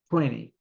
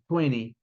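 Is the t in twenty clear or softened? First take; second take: softened; softened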